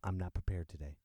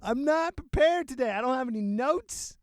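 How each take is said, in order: First: Low quiet admission. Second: Much higher and louder, "prepared" punched hard; loud declaration. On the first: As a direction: lower and softer, "I'm not prepared today" mumbled down at the end. Quiet confession, then repeated loudly. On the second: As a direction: announce it boldly to everyone. Repeats loudly after laughing. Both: Real, not acted.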